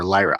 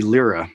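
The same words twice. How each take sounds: First: Lyra said as LIE-ra; alternative pronunciation. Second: Lyra said as LEE-ra; first pronunciation. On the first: Trainer offering another option, Lyra as LIE-ra. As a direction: say Lyra with an EYE in the first syllable. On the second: Trainer unsure of the brand name, Lyra as LEE-ra. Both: Shown as a demonstration. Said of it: "not sure how to pronounce it".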